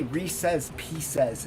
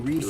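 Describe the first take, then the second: First: The name is said with careful, precise enunciation. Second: The name is said loosely and casually. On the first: It sounds like trying too hard to be proper. The speaker calls it wrong. "it makes it sound like you're trying to enunciate properly" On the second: It sounds more fun. The speaker calls it right. "sounds more fun if you go"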